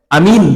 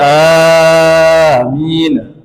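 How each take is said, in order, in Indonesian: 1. Vokal pertama dibaca sangat pendek. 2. Vokal pertama dibaca sangat panjang. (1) "Kalau hanya pendek" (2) "Atau hanya panjang kali"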